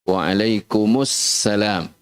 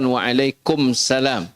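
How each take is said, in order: First: The s before salam is doubled and held. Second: The s before salam is short and single. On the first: The speaker calls it right. "Dia ada alif lamnya di situ. Alif lam syamsiyah" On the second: The speaker calls it wrong. "Bukan waalaikumsalam"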